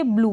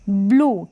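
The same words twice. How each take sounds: First: Second ब्लू said as "blyoo"; wrong-reading demo, ब्लू as "blyoo"; mispronounced with y-glide. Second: Said in the usual way. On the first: Shown as a demonstration. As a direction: put a "y" before the vowel in ब्लू. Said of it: "ब्लू नहीं पढ़ेंगे". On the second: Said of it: "इसको पढ़ेंगे".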